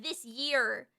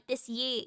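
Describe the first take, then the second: First: "year" with a clear R at the end; "year" said in full, R and all; pronounced final R. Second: "year" without its final R; softer "year", trailing into an open vowel; dropped final R. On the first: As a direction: sound the R in "year". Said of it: "instead of". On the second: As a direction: leave the R off "year". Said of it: "they're like". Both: Shown as a demonstration.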